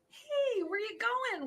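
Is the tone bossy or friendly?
friendly. It sounds warm and friendly.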